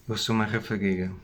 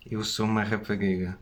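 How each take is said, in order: Both takes have the same delivery.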